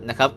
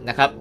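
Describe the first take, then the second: No difference in how they are said.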